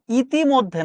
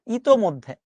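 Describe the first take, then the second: First: ইতিমধ্যে with a rising question tune; the rejected ইতিমধ্যে, rising; wrong form. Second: ইতোমধ্যে with a firm falling tune; the corrected ইতোমধ্যে, settled; correct form. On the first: (ভুল রূপ ইতিমধ্যে, প্রশ্নের সুরে) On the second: (শুদ্ধ রূপ ইতোমধ্যে, নিচু সুরে) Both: Shown as a demonstration. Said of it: "না".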